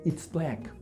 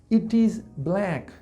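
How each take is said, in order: First: Pronoun and verb are merged into one word. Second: Pronoun and verb are said as separate words.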